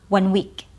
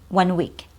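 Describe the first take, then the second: Both takes have the same delivery.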